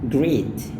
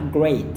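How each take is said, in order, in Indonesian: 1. Pelafalannya bergaya Indonesia. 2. Pelafalannya standar bahasa Inggris. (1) "banyak orang Indonesia melafalkannya dengan great" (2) "Padahal yang tepatnya adalah great"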